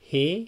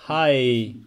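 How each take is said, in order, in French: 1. La voyelle ressemble au mot anglais 'hay'. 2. La voyelle ressemble au mot anglais 'high'. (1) "c'est pas hey" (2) "c'est pas hi"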